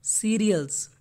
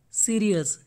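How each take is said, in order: Both takes have the same delivery.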